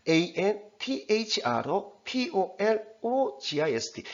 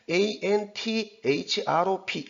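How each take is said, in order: First: Slow, deliberate 에이엔티에이치알오피오엘오지아이에스티, grouped by syllable; careful syllable spelling. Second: String 에이엔티에이치알오피 together letter after letter without syllable breaks; spelling letter by letter. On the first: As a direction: spell 에이엔티에이치알오피오엘오지아이에스티 slowly, pausing at each syllable break. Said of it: "이런 식으로 하라는 겁니다". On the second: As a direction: rattle off 에이엔티에이치알오피 as a flat run of single letters. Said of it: "이렇게 하면 안 된다는 겁니다". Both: Shown as a demonstration.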